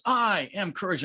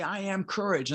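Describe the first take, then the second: First: "I" lifted high above the rest; stress on I. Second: "courage" carries the weight; stress on COURAGE. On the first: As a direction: affirm it, leaning on "I". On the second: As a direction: affirm it, landing on "courage". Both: Shown as a demonstration. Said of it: "I emphasize different words".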